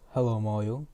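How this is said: It is said in a deep voice. The speaker calls it right. "It was like deep voice"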